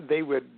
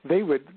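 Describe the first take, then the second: No difference in how they are said.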